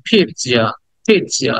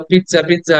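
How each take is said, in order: First: "পিৎজা" as peet-sya, with a light t; correct pronunciation. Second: "পিৎজা" quick, with a short i and j sound; casual local way of saying "পিৎজা"; everyday mispronunciation. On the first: Teacher showing the slightly sounded T, carefully pronounced. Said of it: "এটাকে টি নিয়ে বলতে হবে". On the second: Teacher quoting how learners say it, mispronounced. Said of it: "পিৎজা খেতে অভ্যস্ত আমরা". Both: Shown as a demonstration.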